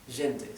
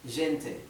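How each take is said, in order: No difference in how they are said.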